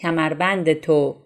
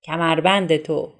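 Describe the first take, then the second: First: The object marker is merged into the preceding word. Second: The object marker is merged into the preceding word.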